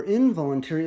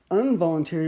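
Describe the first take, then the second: First: "involuntary" begun with a clear IN; in- prefix. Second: "involuntary" begun with UN, as unvoluntary; un- prefix. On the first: Offering the other word form to learners, in- prefix. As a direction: say "involuntary" with an in- sound at the start. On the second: Offering both word forms to learners, un- prefix. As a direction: say "involuntary" with an un- sound at the start. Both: Shown as a demonstration. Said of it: "Or you might say involuntary".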